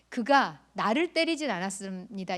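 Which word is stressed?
나를. The second word carries the stress. A different person was hit. "이 표현은 그가 나는 안 때리고 다른 사람을 때렸다는 뜻이에요"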